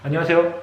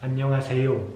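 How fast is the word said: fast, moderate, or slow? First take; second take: fast; moderate. First: It is said very fast, syllables run together. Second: It is said at a moderate, somewhat faster speed. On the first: "sino muy rápido, en plan" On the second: "Luego un poco más rápido"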